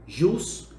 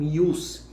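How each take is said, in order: First: The word begins with a 'zh' sound. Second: The word begins with a 'y' sound.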